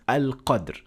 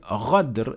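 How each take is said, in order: First: The word begins with a deep 'q' sound. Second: The word begins with a throaty 'gh' sound. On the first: The original meaning of the verse is kept. The speaker calls it right. "the original ayah, which is al-qadr" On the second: The meaning of the verse is changed. The speaker calls it wrong. "completely different from the original ayah"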